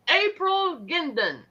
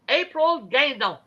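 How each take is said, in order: First: The name is said with an English accent. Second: The name is said with a French accent.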